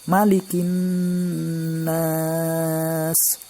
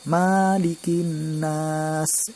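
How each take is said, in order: First: The vowel after the M is short. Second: The vowel after the M is long. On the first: The speaker calls it right. "mim ini huruf pendek... hanya satu ketukan saja... nunnya ditekan" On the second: The speaker calls it wrong. "bukan Malikin nas, itu kurang tepat"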